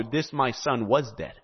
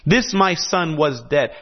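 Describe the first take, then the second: First: Hushed echo of "this, my son, was dead"; softened. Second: "This, my son, was dead" declared firmly, with weight on This; proclaimed. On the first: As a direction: let "this, my son, was dead" fall quiet and reflective. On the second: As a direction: announce "This, my son" as a bold proclamation. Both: Shown as a demonstration. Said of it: "Do you recognize the symbolism of that?".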